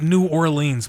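It is said the way upstate New Yorkers say it. This is how people in upstate New York say it. "I know that's how we say it in upstate New York"

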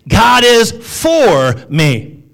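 The stress falls on the word for.

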